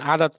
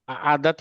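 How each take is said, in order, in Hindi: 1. पहला स्वर सहजता से शुरू होता है, गले में कोई रुकावट नहीं। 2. पहला स्वर गले की रुकावट के साथ शुरू होता है। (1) "हम बोलते हैं अक्सर आदत, आदत नहीं होता है" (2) "आ- आदत होता है"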